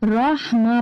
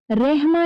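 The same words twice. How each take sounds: First: रहमा with a throaty ह from the throat; right take. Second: रहमा with a thin, light h; wrong take. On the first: Teacher shows children the right रहमा: throaty h. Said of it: "रहमा पढ़ना है". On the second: Teacher shows children how रहमा is not read: thin h. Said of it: "इसको रहमा नहीं पढ़ना". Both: Shown as a demonstration.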